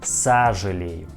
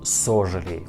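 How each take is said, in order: First: The first vowel sounds like 'a'. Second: The first vowel sounds like a full 'o'. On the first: The speaker calls it right. "we pronounce this word like а" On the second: The speaker calls it wrong. "not сожалею"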